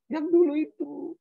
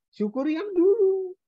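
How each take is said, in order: First: Repeating it gently with a lift on dulu; "Yang dulu itu" as a quieter echo, dulu rising at the end; softer echo. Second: Preacher's high emphatic call; "Syukuri yang dulu" with dulu pitched high and hit hard; stress on dulu. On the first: Preacher echoing his own point, softer. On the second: Preacher urging the congregation, stress on dulu. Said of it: "Apanya yang disyukuri?". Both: Real, not acted.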